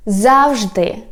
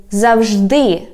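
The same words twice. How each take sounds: First: "завжди" stressed on ЗАВ; front-stressed "завжди"; stress on first syllable. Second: "завжди" stressed on final ДИ; stress on last syllable. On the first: Teacher giving the first variant, "завжди" stressed on ЗАВ. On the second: Teacher giving the alternative, "завжди" stressed on ДИ. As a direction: push the stress to the end of "завжди". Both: Shown as a demonstration. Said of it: "or you can say".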